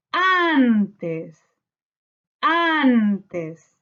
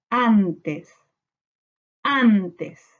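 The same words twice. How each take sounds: First: "antes" with a long, lifted AN, then falling; stressed first syllable. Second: "antes" in two measured syllables, an-tes, falling. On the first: Teacher hunting the sílaba tónica, "antes" with AN drawn out. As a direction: stretch the AN of "antes". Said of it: "Buscamos sílaba tónica". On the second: Teacher separating syllables for pupils, "antes" as an-tes. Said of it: "separamos por sílaba". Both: Shown as a demonstration.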